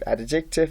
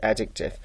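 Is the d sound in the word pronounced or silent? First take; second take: pronounced; silent. First: The d sound is clearly pronounced. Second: The d sound is silent. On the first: The speaker calls it wrong. "So we don't pronounce it adjective" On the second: The speaker calls it right. "We pronounce it adjective"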